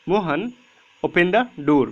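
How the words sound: There is a short pause after the name. The speaker calls it right. "मैंने थोड़ा सा gap दिया वहाँ पे रीडिंग में"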